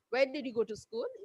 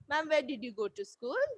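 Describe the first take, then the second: First: It is asked in a rude, abrupt tone. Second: It is asked in a polite, respectful tone.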